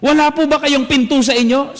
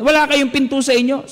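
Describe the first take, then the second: First: Higher, cheeky shouted "Wala po ba kayong pinto sa inyo?"; a brat heckling the priest; shouted taunt, imitated; retold shout. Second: Retold shout. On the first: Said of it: "sinigawan po ako". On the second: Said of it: "Sabi niyang ganyan".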